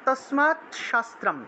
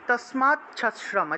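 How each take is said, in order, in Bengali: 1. শব্দ দুটি আলাদা হয়, t তারপর sh ধ্বনি। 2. শব্দ দুটি ch-chh গুচ্ছ দিয়ে যুক্ত হয়।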